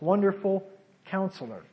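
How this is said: A pause separates the two words.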